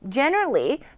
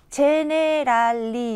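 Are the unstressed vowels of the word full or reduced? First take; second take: reduced; full. First: The unstressed vowels are short and weak. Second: Every vowel is pronounced fully and clearly. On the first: The speaker calls it right. "첫 음절에 강세에 들어가요" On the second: The speaker calls it wrong. "이렇게 발음하지 않잖아요"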